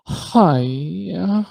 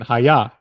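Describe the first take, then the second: First: Gritty drawn-out hi-ya, imitated; gritty, dragged out. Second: Said in the usual way. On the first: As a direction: drag it out with grit, rising. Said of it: "like, gritty kinda". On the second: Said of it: "that's the way I'll think of it".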